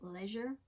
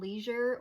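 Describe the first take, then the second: First: It is said with a British pronunciation. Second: It is said with an American pronunciation.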